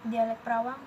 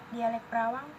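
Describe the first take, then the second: The two takes are said the same way.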